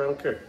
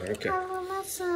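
First: Said in the usual way. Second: High, very slow mock I don't care; mock drawn-out. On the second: Shown as a demonstration. Dad repeats "I don't care" to the kids in a mock drawn-out voice.

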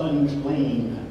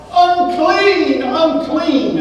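First: "unclean" said soft and low, almost a whisper; hushed cry. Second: High, loud shouted cry; shouted warning. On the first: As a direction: breathe "unclean" softly and low. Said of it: "the cries of". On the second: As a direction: shout it out to warn people away. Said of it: "he had to shout". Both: Retold or imitated.

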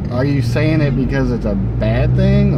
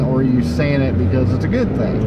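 First: "saying" leaned on, "bad thing" lifted up in a questioning rise; question rising on bad. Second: "good" stressed and the line falling off; question falling on good. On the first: Puzzling over the customer's remark, "bad" rising in question. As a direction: ask it with the voice climbing toward "bad". Weighing two readings of her line. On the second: Puzzling over the customer's remark, "good" stressed and falling. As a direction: land "good thing" with a falling close. Second option of the contrast. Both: Real, not acted.

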